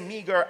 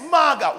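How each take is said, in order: First: It is said in standard English pronunciation. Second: It is said in plain Jamaican pronunciation. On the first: "when I'm talking in Jamaica, I do not say meager" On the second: "But it's not mager. It's what? Yes, maga"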